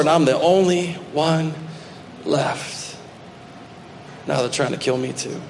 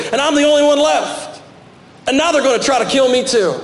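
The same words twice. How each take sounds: First: Trailing off to a near-whisper on "left"; broken, fading. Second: High, pleading cry of the lone prophet; anguished protest. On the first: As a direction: let it die away, defeated. Same answer, now fading out. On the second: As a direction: pitch it up and cry it out. Elijah's complaint, cried out high. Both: Acted.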